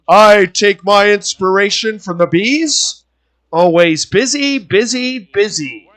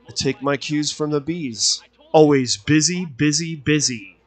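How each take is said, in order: First: It is said in a comical, playful tone. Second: It is said flatly and seriously.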